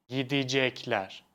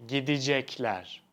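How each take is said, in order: The two takes are said the same way.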